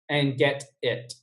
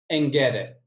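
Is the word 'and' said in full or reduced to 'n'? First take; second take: full; reduced. First: The word 'and' is pronounced fully and clearly. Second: The word 'and' is reduced to a short 'n'. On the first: The speaker calls it wrong. "we don't say ... That kind of sounds weird" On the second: The speaker calls it right. "just kind of say the letter N"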